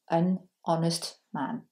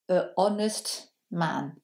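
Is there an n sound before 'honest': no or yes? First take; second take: yes; no. First: An n sound links the article to honest. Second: The article is a bare vowel before honest. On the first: The speaker calls it right. "on va lui appliquer la règle des voyelles" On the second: The speaker calls it wrong. "ça peut faire un peu étrange"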